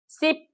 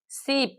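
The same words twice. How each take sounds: First: Short, quick "i" in Sip; short vowel. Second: Long "ee" in sip; long vowel. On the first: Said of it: "S H". (Sip ಪದದಲ್ಲಿ ಹ್ರಸ್ವ "ಇ") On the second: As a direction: stretch sip to sound like "seep". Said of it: "S H double ಇ P". (sip ಪದದಲ್ಲಿ ದೀರ್ಘ "ಈ") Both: Shown as a demonstration.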